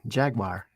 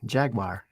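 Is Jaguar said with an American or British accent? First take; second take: American; American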